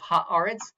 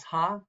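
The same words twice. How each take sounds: First: Said in the usual way. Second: "ha-a-retz" in three separated pieces; syllable by syllable. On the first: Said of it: "You break that up". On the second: Shown as a demonstration. Teacher splitting a word for students, "ha-a-retz" syllable by syllable. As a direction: break "ha-a-retz" up with a pause after each syllable. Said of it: "break that up into three syllables".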